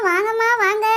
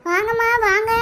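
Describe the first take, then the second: First: Said in the usual way. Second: Sung hawker's call; sung, singsong street hawker. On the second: Acted. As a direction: chant it like a street seller. Hawker calling out customers, sung.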